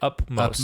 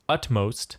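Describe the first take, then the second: First: The middle consonant is a P sound. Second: The middle consonant is a T sound. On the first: The speaker calls it wrong. "People say upmost" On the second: The speaker calls it right. "Correct pronunciation is utmost"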